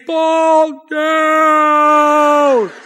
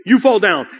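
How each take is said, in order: First: Long, drawn-out high holler; coach yelling. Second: Sudden short burst of volume; louder, emphatic retort. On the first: Coach keeps screaming at his runner, stretched-out yell. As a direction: imitate a coach bellowing from the sideline. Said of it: "Coach is saying". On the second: Runner turns on his coach, loud emphatic retort. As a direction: turn and snap it back emphatically. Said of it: "a little louder and a little more emphatic". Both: Retold or imitated.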